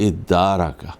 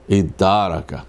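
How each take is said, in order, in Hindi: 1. यह स्वर से शुरू होता है और दोहरा d है। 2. यह स्वर से शुरू होता है और दोहरा d है।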